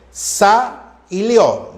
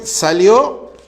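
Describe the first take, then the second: First: SA, pause, LIO, drawn out; syllable by syllable. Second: Said in the usual way. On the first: Shown as a demonstration. Teacher counting the diphthong in salió, syllable by syllable. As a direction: slowly split salió into SA and LIO. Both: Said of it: "lio va uno".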